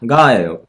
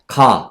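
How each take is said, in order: First: A light nasal hum comes before the g sound. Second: The g sound starts plainly with no nasal hum. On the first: The speaker calls it right. "일본어는 응, 응가, 응가, 응가예요" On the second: The speaker calls it wrong. "한국어는 이것만 있잖아요"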